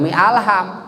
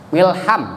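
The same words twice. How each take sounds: First: "mi alham" with the alif sounded; wrong joining. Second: "Milham" run together as mil-ham; alif dropped. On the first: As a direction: say "mi alham" as mi, then al-ham. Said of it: "Jangan mi alham". ("mi alham" dengan bunyi a di awal alham) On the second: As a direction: join "Milham" with no "a" between m and l. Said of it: "Hilangkan, alifnya hilangkan". ("Milham" disambung, alifnya hilang) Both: Shown as a demonstration.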